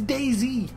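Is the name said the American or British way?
American. The name is said the American way.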